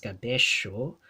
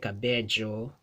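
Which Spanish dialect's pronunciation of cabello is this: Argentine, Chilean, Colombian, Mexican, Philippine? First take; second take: Argentine; Chilean. First: The double L is said the Argentine way. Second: The double L is said the Chilean way. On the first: "in Argentina would be pronounced as cabello" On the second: "in Chile"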